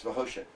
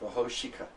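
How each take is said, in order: First: The word ends on the K with no vowel. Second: A short vowel is sounded after the final K. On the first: The speaker calls it right. "It's Vahoshik" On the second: The speaker calls it wrong. "it'd be kind of weird"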